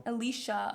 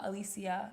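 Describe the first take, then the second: First: Alicia said as uh-LEE-shuh; three syllables in Alicia, with a sh sound; sh pronunciation. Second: Alicia said as uh-LEE-see-uh; four syllables in Alicia, with an s sound; see-uh pronunciation. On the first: Comparing two versions of a viewer's name, Alicia as uh-LEE-shuh. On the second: Comparing two versions of a viewer's name, Alicia as uh-LEE-see-uh. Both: Shown as a demonstration. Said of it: "could be pronounced both ways".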